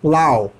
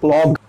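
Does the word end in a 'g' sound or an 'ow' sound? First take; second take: ow sound; g sound. First: The word ends with an open 'ow' sound. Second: The word ends with a hard 'g' sound. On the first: The speaker calls it right. "बहुत simple है" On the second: The speaker calls it wrong. "प्लॉग नहीं कह सकते इसे आप।"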